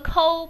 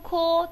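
First: The vowel is said with a wider, open mouth. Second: The vowel is said with small, rounded lips. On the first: The speaker calls it wrong. "不要读成个抠，不是抠的发音啊" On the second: The speaker calls it right. "嘴巴放得小一点，圆一点"

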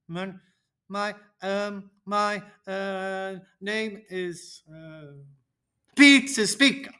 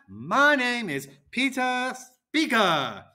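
First: It is said unevenly, with an unsteady pace. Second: It is said smoothly, at an even pace. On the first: The speaker sounds unsure. The speaker calls it wrong. "I should not be saying" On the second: The speaker sounds confident. The speaker calls it right. "be steady and go at a good pace"

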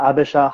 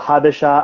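First: The word begins with a vowel sound. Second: The word begins with an h sound. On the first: "they tend to drop H's a lot" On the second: "In Amharic, they tend to drop H's a lot"

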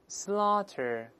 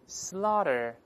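First: It is said slowly with a clear t. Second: It is said fast with a voiced, flapped t. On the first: "美音中读慢了是这么读的" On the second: "读快了之后呢，中间这个t 会轻轻浊化"

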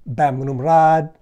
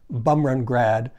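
First: The name is said with the Thai pronunciation. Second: The name is said with a Western pronunciation. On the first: Locals will understand it. The speaker calls it right. "It's actually pronounced Bamrumrad" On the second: Taxi drivers will not understand it. The speaker calls it wrong. "Westerners always say Bumrungrad"

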